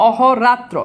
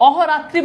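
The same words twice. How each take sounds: First: অহরাত্র said slowly with no final vowel, ending on -tr; teacher slowly gives the correct অহরাত্র without -i; correct form. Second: অহরাত্রি said with the final ি, as a wrong example; teacher shows অহরাত্রি with the extra -i as the error; wrong form. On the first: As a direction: spell out the right অহরাত্র slowly, cutting the ending short. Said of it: "বলতে হবে অহরাত্র". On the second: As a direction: read out অহরাত্রি ending in -ri to show the mistake. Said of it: "অহরাত্রি বলা যাবে না". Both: Shown as a demonstration.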